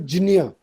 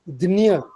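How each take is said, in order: First: The cluster is sounded like jnya. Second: The cluster is sounded like dnya. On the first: This is closest to the assumed historical sound. "let's stick to Jinya ... theoretically closest" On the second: This is how it is said in Marathi. "So Marathi pronunciation Dinya"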